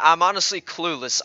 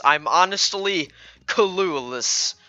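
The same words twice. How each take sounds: First: Said in the usual way. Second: "clueless" stretched into separate syllables, "cuh-loo-less"; emphatic clueless. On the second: Real, not acted. Player admitting confusion, "clueless" drawn out syllable by syllable. Same words repeated for emphasis.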